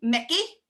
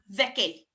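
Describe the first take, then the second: First: The name begins with an M sound. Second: The name begins with a V sound.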